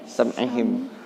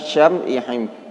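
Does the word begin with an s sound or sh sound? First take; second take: s sound; sh sound. First: The word begins with a plain s sound. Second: The word begins with a sh sound. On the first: The speaker calls it right. "S biasa" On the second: The speaker calls it wrong. "bukan syam'ihim"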